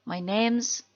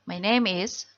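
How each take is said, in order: First: 'Name is' is shortened to 'name's'. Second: 'Name is' is said as two full words.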